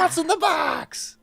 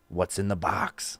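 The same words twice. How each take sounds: First: Very high, drawn-out catchphrase; theatrical falsetto cry; mock desperate wail. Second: Quiet, drawn-out question; hushed game intro. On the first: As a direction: wail it in hammed-up anguish. Host repeats catchphrase in mock desperation. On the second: Acted. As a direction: softly set up the mystery. Host introduces the game's catchphrase.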